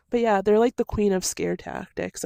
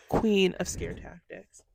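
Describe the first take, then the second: First: Said in the usual way. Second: Slow, deliberate "Queen of scare tactics"; slow emphatic repeat. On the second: Real, not acted. Repeats phrase slowly.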